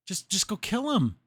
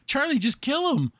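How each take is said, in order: First: Said in the usual way. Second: Louder, higher, pleading with Charlie; exasperated outburst. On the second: Real, not acted. Viewer yelling at Charlie to just kill him, exasperated. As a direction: shout it at the screen in frustration.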